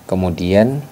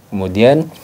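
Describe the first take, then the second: The two takes are said the same way.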